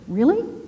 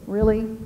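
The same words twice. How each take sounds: First: It sounds warm, curious and engaged. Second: It sounds doubtful and uninterested. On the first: The listener cares and wants to hear more. The speaker calls it right. "Tell me more" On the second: The listener doubts it or does not care. The speaker calls it wrong.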